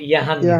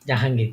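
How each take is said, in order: First: The name starts with a 'y' sound. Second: The name starts with a 'j' sound.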